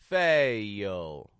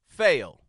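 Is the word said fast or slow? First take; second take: slow; fast. First: The word is drawn out very slowly. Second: The word is said quickly and compactly. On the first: "In slow motion"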